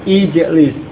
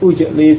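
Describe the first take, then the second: First: The word begins with an i vowel. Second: The word begins with a u vowel. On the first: The speaker calls it right. "maka harokat hamzah wasal juga kasrah" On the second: The speaker calls it wrong. "bukan ujlis"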